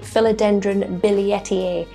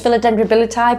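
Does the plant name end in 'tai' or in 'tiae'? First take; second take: tiae; tai. First: The name ends in a longer 'tiae' sound. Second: The name ends in a short 'tai' sound. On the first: The speaker calls it right. "its actual pronunciation" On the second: The speaker calls it wrong. "it is not pronounced like that"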